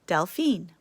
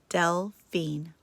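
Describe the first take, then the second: First: The name is said smoothly in one piece. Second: The name is split into separate syllables.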